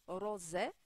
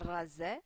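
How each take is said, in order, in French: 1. Le r est lourd, avec une voyelle o arrondie. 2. Le r est léger, avec une voyelle a ouverte. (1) "vous allez dire ro, rosé" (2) "et non pas rasé"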